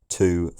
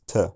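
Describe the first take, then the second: First: The word has a full, stressed vowel. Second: The word is cut to a weak, short form. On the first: "a stressed form" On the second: "an unstressed form"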